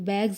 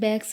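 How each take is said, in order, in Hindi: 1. इस शब्द का अंत z की आवाज़ से होता है। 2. इस शब्द का अंत s की आवाज़ से होता है। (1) "ये बैग्स होता है" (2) "ऐसे ही हम बैग्स बोलते हैं ना"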